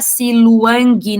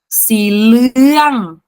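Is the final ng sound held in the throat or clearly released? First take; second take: released; held. First: The final consonant is clearly sounded out. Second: The final ng is held back in the throat. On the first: The speaker calls it wrong. "a gente não pode falar Siluang, não. A gente não lê as consoantes finais" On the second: The speaker calls it right. "esse N G, ele trava aqui na sua garganta"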